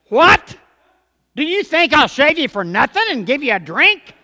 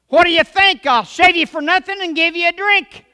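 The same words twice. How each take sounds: First: The phrase breaks after 'what', then a question. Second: The phrase breaks after 'think', then a statement.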